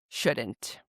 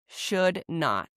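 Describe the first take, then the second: First: Not is shortened and joined to the verb. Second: Not is said as a separate full word. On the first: "this is how you would pronounce them as a native speaker does" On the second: "you just add not"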